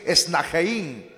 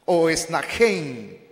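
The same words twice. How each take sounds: First: "esnajein" slowly, with E and I sounded separately; alternatieve uitspraak. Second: "esnajein" slowly, ending run together as -jein; corrected pronunciation. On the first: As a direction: draw out "esnajein" as es-na-je-in. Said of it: "también se pronuncia así". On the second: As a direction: demonstrate "esnajein" with one gliding last syllable. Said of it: "la pronunciación más correcta". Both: Shown as a demonstration.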